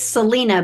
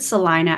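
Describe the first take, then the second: First: The name is said the way it looks written. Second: The name is said with the local pronunciation. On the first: This is how outsiders would read the name. The speaker calls it wrong. "it looks like it's Selena" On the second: This is how people who live there say it. The speaker calls it right. "we pronounce it Salina"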